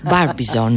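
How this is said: It is said with an American pronunciation. "Y en americano sería"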